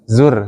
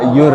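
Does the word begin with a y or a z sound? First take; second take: z; y. First: The word begins with a clear z sound. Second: The word begins with a y sound. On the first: The speaker calls it right. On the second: The speaker calls it wrong.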